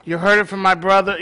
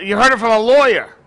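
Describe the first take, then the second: First: Said in the usual way. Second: Louder, quicker playful dig at the lawyer; teasing jab. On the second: Acted. Pastor teasing the lawyer in the congregation, playfully louder. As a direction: poke fun at him with a grin. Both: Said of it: "Just kidding".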